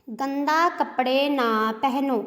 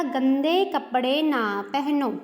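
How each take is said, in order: First: Slow, leaning on गंदा as the wrong word; wrong form stressed. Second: Slow, leaning on गंदे as the right word; correct form stressed. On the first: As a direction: say गंदा कपड़े deliberately, stressing गंदा. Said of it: "अब ये बोलने में कितना अटपटा सा लग रहा है". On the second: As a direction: say गंदे कपड़े clearly, stressing गंदे. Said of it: "सही क्या आएगा?". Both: Shown as a demonstration.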